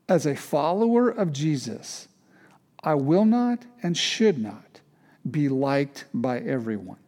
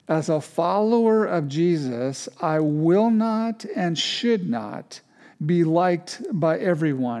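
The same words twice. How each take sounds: First: It is said hesitantly, without much conviction. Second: It is said firmly, with clear conviction.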